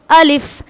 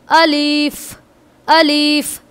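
First: अलिफ clipped short, no stretching; अलिफ said crisp and brief; correct short अलिफ. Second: अलिफ with the ending stretched too long; अलिफ drawn out, the wrong way; wrong dragged अलिफ. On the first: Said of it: "इसको हमें बोलना है". (अलिफ छोटा और सही) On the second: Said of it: "खींचना नहीं है इस तरह से". (अलिफ खींचकर, गलत तरीका) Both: Shown as a demonstration.

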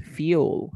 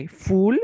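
First: "fuel" as slow "fyool"; corrected pronunciation. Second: "full" with no y-glide, like "fool"; mispronunciation shown. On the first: Teacher corrects Gonzalo's word, slow "fuel" as "fyool". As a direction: put a clear y-glide after the f of "fuel". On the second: Teacher echoes student's slip, "full" without any y-sound. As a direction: echo the mistaken "full", raised as a query. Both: Shown as a demonstration. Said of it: "Esto es fuel".

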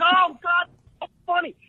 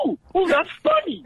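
First: Mock laughing. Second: High, giddy ooh-ooh, laughing through it; gleeful mock excitement. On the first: The group cracking up, mimicked. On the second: Mimicking his friend's giddy excitement at the table. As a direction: play the eager newcomer, thrilled at the laugh.

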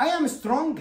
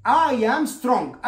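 First: Said in the usual way. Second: Each word stretched out very slowly; slow model sentence. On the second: Shown as a demonstration. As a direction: spell it out slowly for learners. (نطق بطيء جدًا للجملة) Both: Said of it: "مثلًا".

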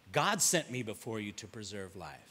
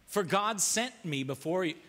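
First: Low, quiet repeat. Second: Said in the usual way. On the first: Shown as a demonstration. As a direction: repeat the verse low and soft, to let it sink in.

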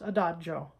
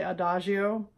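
First: Adagio with a dj, a-DA-djo; the proper Italian adagio; correct Italian. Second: Adagio with a zh sound, a-DA-zhee-o; the schoolroom American adagio; adagio, mispronounced with zh; wrong pronunciation. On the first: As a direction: adagio with a dj sound. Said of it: "It's pronounced". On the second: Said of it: "taught in middle school and high school to say". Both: Shown as a demonstration.

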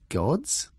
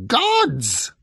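First: GODS as a rising question; puzzled echo. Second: High, loud, piercing outburst; eagle screech. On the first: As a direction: repeat GODS with questioning disbelief, no shouting. Odd echoes it as question. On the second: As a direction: screech GODS as an impatient correction. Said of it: "screeched the eagle". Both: A narrator's reading.

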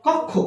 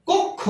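First: কক্ষ with open "aw" first vowel; mispronunciation shown. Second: কক্ষ high, with closed "o": "kok-kho"; correct pronunciation. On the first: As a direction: say কক্ষ as "kawk-kho". (কক্ষ-এর প্রথম স্বর খোলা অ) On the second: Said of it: "এটার উচ্চারণ হচ্ছে". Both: Shown as a demonstration.

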